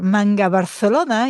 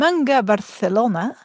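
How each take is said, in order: First: It is said with a Catalan accent. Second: It is said with an English accent.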